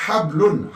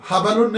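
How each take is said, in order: First: हबलुन as hab-lun; correct vowelless b. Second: हबलुन as ha-ba-lun; mispronunciation with extra vowel. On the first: Teacher correcting the reading for students, हबलुन as hab-lun. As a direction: close the first syllable on b, हबलुन in two syllables. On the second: Teacher showing students the wrong reading, हबलुन as ha-ba-lun. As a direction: put an a after b, हबलुन in three syllables. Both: Shown as a demonstration. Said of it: "हबलुन नहीं है".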